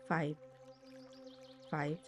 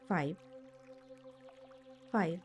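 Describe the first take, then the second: No difference in how they are said.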